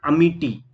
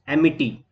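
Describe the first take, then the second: First: अमिटी opening on a short "uh" vowel; alternative pronunciation. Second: एमिटी opening on an open "e" vowel; alternative pronunciation. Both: Shown as a demonstration. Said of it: "कुछ भी बोल सकते हैं हम".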